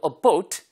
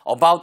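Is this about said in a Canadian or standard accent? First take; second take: Canadian; standard. First: The vowel in about is said the Canadian way. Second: The vowel in about is said the standard way. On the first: "Canadian English에서는 about 이렇게 하잖아요" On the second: "about 안 하고"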